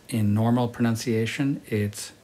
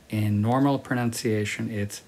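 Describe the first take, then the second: No difference in how they are said.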